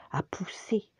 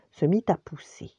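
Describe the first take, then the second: First: Whispered echo. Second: Said in the usual way. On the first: A narrator's reading. Repeated phrase whispered.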